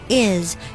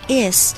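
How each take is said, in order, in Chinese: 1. 这个单词以 z 音结尾。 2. 这个单词以 s 音结尾。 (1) "is s 我们要把它发成z 的音" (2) "不要发成s 的音，不是is，不对"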